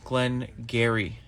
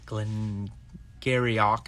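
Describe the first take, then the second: First: The second word is short, with no final syllable. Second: The second word has an extra final syllable. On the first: The speaker calls it right. "it's two words" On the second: The speaker calls it wrong. "is not the way to pronounce it"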